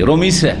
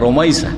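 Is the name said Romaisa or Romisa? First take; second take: Romisa; Romaisa. First: The middle syllable is a plain i sound. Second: The middle syllable is an ai sound. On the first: The speaker calls it wrong. "রমিসা না" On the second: The speaker calls it right. "না রমাইসা"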